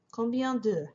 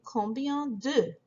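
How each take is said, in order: First: Said in the usual way. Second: Combien de? said slowly, leaning on de; slow model. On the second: Shown as a demonstration. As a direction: spell out combien de? slowly for the class.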